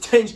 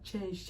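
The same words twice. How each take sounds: First: It is said in a strong, forceful tone. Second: It is said in a weak, pleading tone. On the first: Someone is demanding something they are fighting for. The speaker calls it right. "Because we want this change. Like we're fighting for this change" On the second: Someone is humbly asking for something. The speaker calls it wrong. "their tone is not like"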